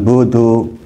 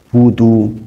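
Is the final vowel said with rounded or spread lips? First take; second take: spread; rounded. First: The final vowel is said with spread lips. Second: The final vowel is said with rounded lips. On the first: The speaker calls it wrong. "bukan budu ... jangan menuju ke e" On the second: The speaker calls it right. "harus betul-betul ada ada isyarat mencucu"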